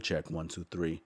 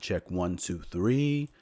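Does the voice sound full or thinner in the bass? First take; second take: thinner; full. First: The low and mid bass sounds cut away. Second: The voice keeps its full, unfiltered low end. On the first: "F high pass filter" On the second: "So you see this is flat"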